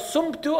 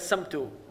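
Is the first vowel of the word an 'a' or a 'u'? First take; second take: u; a. First: The first vowel is a 'u', emphatic s. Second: The first vowel is an open 'a', plain s. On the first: The speaker calls it right. "بالضمّة. And with a sod, not a sin" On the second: The speaker calls it wrong. "And with a sod, not a sin. Allahumma laka samtu. Allah alone knows what that means"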